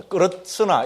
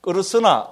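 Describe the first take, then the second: First: 끄르스나 with a T before 스; T added. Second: 끄르스나 drawn out slowly, no T; first pronunciation without T. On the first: Teacher correcting the Sanskrit word, T inserted. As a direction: put a T stop into 끄르스나 before 스. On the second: Teacher introducing the Sanskrit word, slow and plain. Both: Shown as a demonstration. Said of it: "T가 들어갑니다".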